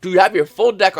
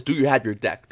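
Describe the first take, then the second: First: Full hit higher and louder; stress on full. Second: Said in the usual way. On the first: Shown as a demonstration. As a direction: lean hard on the word full, louder and higher.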